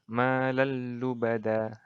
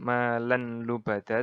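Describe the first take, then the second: First: The n merges fully into a doubled l. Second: The n sound is pronounced before the l. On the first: The speaker calls it right. "tapi yang benar malallubada" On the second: The speaker calls it wrong. "bukan malanlubada"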